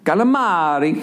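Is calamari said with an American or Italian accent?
Italian. The word is said with an Italian accent. The speaker calls it right. "How they said it"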